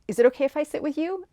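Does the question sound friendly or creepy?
friendly. It sounds friendly and respectful.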